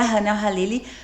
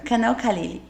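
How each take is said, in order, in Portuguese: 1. Começa com um som de H aspirado. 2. Começa com um som de K forte. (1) "a pronúncia certa seria" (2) "eu vou falar brasileirado porque é a forma que a gente fala aqui mesmo"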